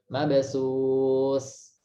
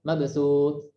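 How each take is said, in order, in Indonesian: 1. Konsonan akhir tetap mengalir. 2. Konsonan akhir terputus mendadak. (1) "masih ada aliran" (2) "nggak boleh langsung di langsung ditarik kuat"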